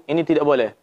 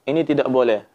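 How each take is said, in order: Both takes have the same delivery.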